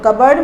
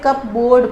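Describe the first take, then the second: First: It is said as cubberd, with no P. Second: It is said as cup board, with a P. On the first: The speaker calls it right. "The pronunciation is कबर्ड" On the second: The speaker calls it wrong. "बहुत सारे बच्चे इसे कप बोर्ड पढ़ते हैं but it is wrong"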